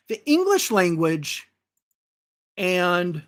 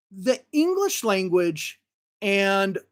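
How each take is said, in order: Both takes have the same delivery.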